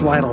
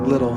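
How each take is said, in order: First: The name does not sound like 'little'. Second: The name sounds just like 'little'. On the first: The speaker calls it right. "It's Lytle, by the way" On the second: The speaker calls it wrong. "It's not Little"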